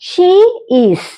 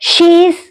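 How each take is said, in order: First: Two separate words, she and is, are spoken. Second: The words merge into one syllable, she's.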